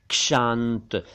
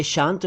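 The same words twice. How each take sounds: First: क्षांत drawn out as "kshaant"; correct ksh onset. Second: शांत said as "shant", no k; bare sh onset. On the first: Teacher correcting learners: क्षांत slowly as "kshaant". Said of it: "और ये है". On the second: Teacher contrasting lookalike words: शांत as "shant". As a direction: say शांत starting with plain sh. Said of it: "ये शांत नहीं है". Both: Shown as a demonstration.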